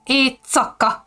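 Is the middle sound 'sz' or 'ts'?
ts. The middle is said with a ts sound.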